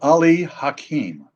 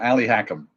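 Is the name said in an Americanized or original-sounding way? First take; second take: original; Americanized. First: The name has its original Middle Eastern pronunciation. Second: The name has a flat Americanized pronunciation. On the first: This is the name's real form. "But you knew it was" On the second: This is how the musical's characters said it. "That's how they pronounced it in Oklahoma"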